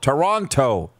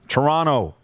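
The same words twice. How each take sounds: First: Every letter is pronounced, including the second t. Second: The second t is dropped, not pronounced as spelled. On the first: The speaker calls it wrong. "Say it the way it's spelt" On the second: The speaker calls it right. "I've changed the way I say Toronto"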